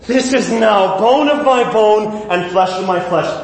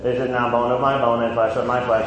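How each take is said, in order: First: It is said with gasping excitement. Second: It is read in a flat, churchy way.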